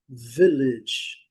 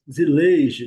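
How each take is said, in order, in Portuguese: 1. A primeira sílaba é forte, a última é fraca. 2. A última sílaba é forte, não reduzida. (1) "Primeira sílaba é bem forte e... a última sílaba é bem fraquinha" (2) "Nós falamos village"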